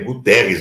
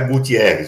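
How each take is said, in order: First: No 'ee' sound follows the T. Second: An 'ee' sound follows the T. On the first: The speaker calls it right. "É Guterres o nome do cara" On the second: The speaker calls it wrong. "não é Gutierrez, viu? Muita gente fala Gutierrez"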